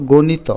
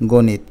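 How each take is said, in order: First: গণিত with a final vowel, "gonito"; three syllables in গণিত, go-ni-to; without hasanta. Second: গণিত ending on a bare t, "gonit"; two syllables in গণিত, go-nit; with hasanta. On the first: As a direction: sound an o after the last t of গণিত. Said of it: "কিন্তু হসন্ত দিলে হয়ে যাবে". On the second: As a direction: drop the vowel after the last t of গণিত. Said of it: "হসন্ত দিলে হয়ে যাবে". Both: Shown as a demonstration.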